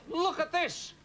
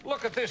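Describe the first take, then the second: First: "look" pitched high and hit hard; emphatic look at this. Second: Said in the usual way. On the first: Acted. Roy to the host, outraged at the fruit rolls, "look" hit high.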